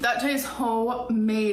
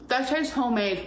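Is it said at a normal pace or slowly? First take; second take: slowly; normal. First: It is said more slowly. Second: It is said at a normal pace.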